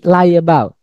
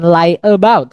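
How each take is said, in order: First: The two words are joined by a y glide. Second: The two words are said separately, without a glide. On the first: The speaker calls it right. "Tapi lie about" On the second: The speaker calls it wrong. "Bukan lie about kan?"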